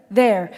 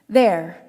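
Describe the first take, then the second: No difference in how they are said.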